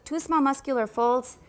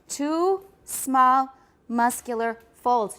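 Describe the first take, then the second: First: It is said quickly without pauses between words. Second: It is said slowly with pauses between words. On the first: The speaker calls it wrong. "What I originally heard you say was" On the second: The speaker calls it right. "Why did I slow down so much?"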